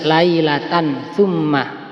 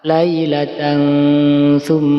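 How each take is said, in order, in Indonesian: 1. Bunyi n diucapkan dengan jelas tanpa dengung hidung. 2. Bunyi n tersamar dengan dengung hidung dua ketukan. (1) "dibaca jelas" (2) "dikasih mendengung dua ketukan atau dua harokat"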